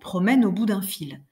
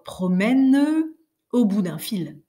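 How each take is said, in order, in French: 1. Le E de promène se fond dans la voyelle suivante. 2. Le E de promène se prononce comme une syllabe séparée. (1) "On va dire tout naturel tout naturellement" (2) "Jamais on ne dirait, heu, l'une: ... Vous sentez comme ce serait abominable"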